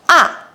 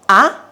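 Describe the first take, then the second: First: The pitch falls from high to low. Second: The pitch rises from middle to high. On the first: "It starts from the highest line and drops down to the lowest line" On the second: "The second tone is only to raise your voice to express your shock"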